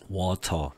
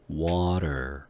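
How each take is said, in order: First: It has a clear T and no R sound. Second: It has a D-like flapped T and an R. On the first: "영국식 발음에는 R 발음이 없으니까 water 이렇게 하지 않고" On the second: "T가 ... D 소리로 바뀌는 형태"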